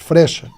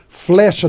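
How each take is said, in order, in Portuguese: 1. A palavra começa com o encontro f-r. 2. A palavra começa com o encontro f-l.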